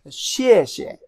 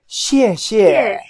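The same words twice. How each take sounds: First: The second syllable is weak and short. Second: Both syllables get a full falling tone. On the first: It is an everyday casual thanks. "in daily life, the second could be weaker" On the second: It is a formal thanks. "very formal situation ... All both go fourth tone"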